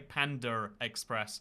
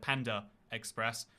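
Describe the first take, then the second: First: An R sound links 'Panda' to 'Express'. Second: No R sound links 'Panda' to 'Express'. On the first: "I say Panda Express" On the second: "instead of Panda Express"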